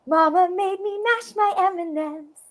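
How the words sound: The voice sounds surprised. "Or just like surprised"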